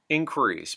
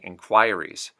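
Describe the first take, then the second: First: It is said in an American accent. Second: It is said in a Canadian accent. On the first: "U S English" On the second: "Canadian English"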